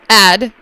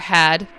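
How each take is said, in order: First: The word starts with a vowel, no H sound. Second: The word starts with a clear H sound.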